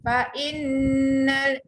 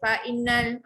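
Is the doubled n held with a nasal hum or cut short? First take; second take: nasal hum; cut short. First: The doubled n is held with a nasal hum. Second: The doubled n is short with no nasal hum. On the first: The speaker calls it right. "wajibuhunah dekat nun sabdu" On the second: The speaker calls it wrong. "Jangan baca fa innal. Ah, tak cantik"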